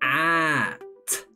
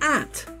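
First: The word is drawn out slowly, sound by sound. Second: The word is said quickly as one short sound. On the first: "help me read it very slowly" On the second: "And even faster"

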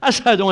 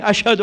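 First: The word is said with an s sound. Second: The word is said with an sh sound. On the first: The speaker calls it wrong. "Bilal could not pronounce sheen and seen, he used to say" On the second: The speaker calls it right. "instead of saying"

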